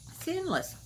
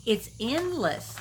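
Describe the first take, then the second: First: "endless" repeated higher and softer, falling; higher, softer echo. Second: "endless" slowly stressed and drawn out; slow emphatic. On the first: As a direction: let "endless" rise up high then fall softly. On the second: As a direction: lean heavily into "endless", slowly. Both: Shown as a demonstration. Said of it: "repeats the phrase".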